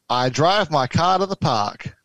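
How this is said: It is spoken in an Australian accent.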